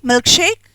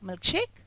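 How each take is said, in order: First: The last word is said loudly. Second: The last word is said softly. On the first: More options are still coming. "If I say it loudly" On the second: This is the last of the choices. "When I say the milkshake softly"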